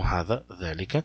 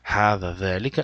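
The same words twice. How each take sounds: First: The first vowel in each word is short. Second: The first vowel in each word is long. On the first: The speaker calls it wrong. "não" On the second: The speaker calls it right. "são pronunciados com aleph longo"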